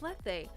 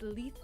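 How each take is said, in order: First: The first syllable does not sound like 'Lee'. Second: The first syllable sounds like 'Lee'. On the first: The speaker calls it wrong. "I always thought it was Lethe" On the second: The speaker calls it right. "Lethe, like Lee"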